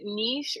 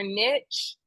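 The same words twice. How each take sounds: First: NICHE rhyming with leash; niche as "neesh". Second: NICHE rhyming with pitch; niche as "nitch". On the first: Host offering guest two pronunciations, niche said "neesh". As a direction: say niche as "neesh", long ee and soft sh. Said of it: "I don't know if you pronounce it". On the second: Host offering guest the other pronunciation, niche said "nitch". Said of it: "pronounce it niche or niche". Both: Shown as a demonstration.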